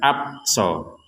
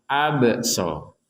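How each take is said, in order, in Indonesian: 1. Bunyi b ditutup datar, tanpa gema. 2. Bunyi b dilepas dengan gema memantul. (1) "tidak sekedar abso, abso. Nah, tidak boleh" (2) "harus ada pantulannya"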